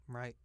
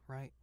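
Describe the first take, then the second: The two takes are said the same way.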